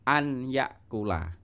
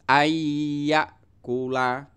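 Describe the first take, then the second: First: The n is pronounced separately before the y. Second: The n merges into a nasal doubled y. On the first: The speaker calls it wrong. "Tidak boleh dibaca an yakula" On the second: The speaker calls it right. "nunnya itu dimasukkan ke dalam huruf ya dan disertai dengan dengung"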